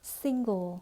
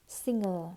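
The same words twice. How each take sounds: First: "single" ending in a dark L, "sing-gol"; "single" with its full "-gle" ending; correct final L. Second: "single" ending in an open "-er", like "singer"; confusable word, singer. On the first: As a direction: sound the g and rounded l in "single". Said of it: "Đọc lại". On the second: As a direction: drop the l of "single" for a schwa. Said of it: "rất hay nhầm với từ". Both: Shown as a demonstration.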